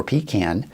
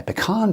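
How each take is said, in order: First: Pecan said PEE-can, stress on the first syllable; alternate pronunciation. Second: Pecan said puh-KAHN, stress on the second syllable; alternate pronunciation. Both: Shown as a demonstration. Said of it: "however you say it".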